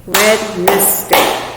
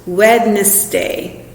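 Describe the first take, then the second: First: Wednesday drawn out slowly, parts marked; teacher modelling Wednesday again. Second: Wednesday slow, syllable by syllable; teacher sounding out Wednesday; clapping out syllables. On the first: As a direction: repeat Wednesday slowly for the class. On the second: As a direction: say Wednesday in slow, separate beats. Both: Shown as a demonstration. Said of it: "Or it could be three syllables".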